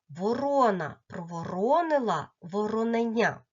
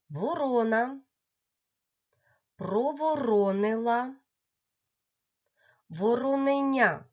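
First: The phrase is said a little faster. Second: The phrase is said at a slow, careful pace.

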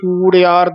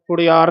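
First: The first vowel is a long u. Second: The first vowel is a short u. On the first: The speaker calls it right. "ਕੂੜਿਆਰ ਦਲੈਂਕੜ" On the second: The speaker calls it wrong. "ਕੁੜਿਆਰ ਨਹੀਂ ਬੋਲਣਾ"

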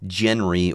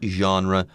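First: It is pronounced in an anglicized way. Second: It is pronounced in a French-style way. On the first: The speaker calls it wrong. "It's not genre or anything like that" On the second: The speaker calls it right. "Pronounce it that way. It's French"

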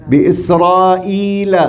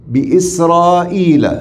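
No difference in how they are said.

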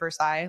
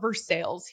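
First: The name is said with a French pronunciation. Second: The name is said with a local Kentucky pronunciation. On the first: It refers to the French city. The speaker calls it right. "like the city of Versailles, like it's French, right?" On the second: It refers to the Kentucky town. The speaker calls it wrong. "They call it Versailles here"

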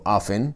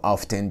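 First: The T sound in the middle is silent. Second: The T sound in the middle is pronounced. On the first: The speaker says it this way. "esta T se escribe pero no se pronuncia. yo digo often" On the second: Some other people say it this way. "Hay gente que dice often, no yo, yo no digo often"

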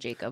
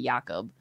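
First: The name is said the usual English way. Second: The name is said the native, non-English way. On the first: This is how Americans usually say it. The speaker calls it wrong. "he doesn't mind Jacob" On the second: This is how the player's own language says it. The speaker calls it right. "it's supposed to be Jakob"

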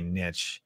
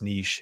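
First: It uses the American pronunciation. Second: It uses the international pronunciation.

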